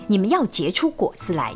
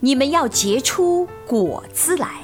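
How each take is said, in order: First: It is read very fast in one breath. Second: It is read with expressive, heartfelt emotion. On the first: "非常快速地把经文一口气诵读" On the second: "加入对经文的理解后的情感来诵读"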